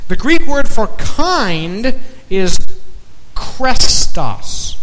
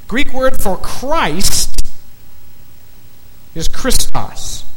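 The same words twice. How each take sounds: First: Krestos said as KRES-tos, rolled and crisp; Greek pronunciation. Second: Christos said high and slow, KRIS-tos; Greek pronunciation. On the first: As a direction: say krestos slowly with a clear K and hard T. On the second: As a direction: draw out Christos to set it against krestos. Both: Shown as a demonstration. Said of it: "Very close".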